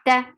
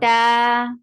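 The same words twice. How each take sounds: First: The vowel is short, one count. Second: The vowel is long, two counts. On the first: "Without Alif, Ta was Ta with Fatha" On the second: "with Alif, it is Ta. Two counts long"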